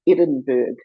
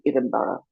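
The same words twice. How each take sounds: First: The name is pronounced the American way. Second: The name is pronounced the Scottish way. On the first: The speaker calls it wrong. "the American pronunciation of the Edinburgh" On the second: The speaker calls it right. "the correct pronunciation would be Edinburgh"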